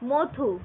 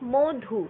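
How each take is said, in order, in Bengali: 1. প্রথম স্বরধ্বনিটি একটি খোলা aw ধ্বনি। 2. প্রথম স্বরধ্বনিটি একটি বদ্ধ o ধ্বনি।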